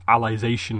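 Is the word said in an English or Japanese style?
English. It is said with English-style pronunciation. It follows the name Alice. The speaker calls it right. "it's meant to be like Alicization"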